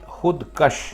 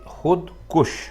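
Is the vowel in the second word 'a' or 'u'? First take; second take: a; u. First: The second word has a short 'a' vowel. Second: The second word has a short 'u' vowel. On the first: The speaker calls it wrong. "तो ये गलत है" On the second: The speaker calls it right. "आप कहेंगे खुद कुश"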